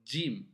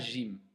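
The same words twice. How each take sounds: First: It begins with a 'dj' sound. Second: It begins with a soft 'zh' sound. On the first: The speaker calls it right. "Les Arabes prononcent Jim. ... un D et un Jim" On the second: The speaker calls it wrong. "on ne dit pas Jim"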